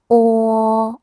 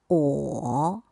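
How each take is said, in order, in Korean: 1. 이 음절은 첫 번째 성조로 발음합니다. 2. 이 음절은 세 번째 성조로 발음합니다.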